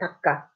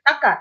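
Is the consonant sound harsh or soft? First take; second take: soft; harsh. First: The consonant sound is soft. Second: The consonant sound is harsh. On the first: "so this sound carries over" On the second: "They even make the sound harsher"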